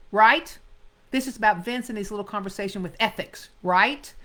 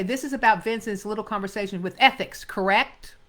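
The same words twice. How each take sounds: First: Quick, clipped detective line with a loud right; blunt detective. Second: Quick line ending on correct; paraphrased line. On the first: Teacher reads the detective's exact line, brisk and pointed. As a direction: fire it off and snap the right. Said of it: "he says". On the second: Teacher shows actors wrongly paraphrasing, ending on correct. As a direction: swap in correct, same brisk read. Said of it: "Sometimes actors will say". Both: Shown as a demonstration.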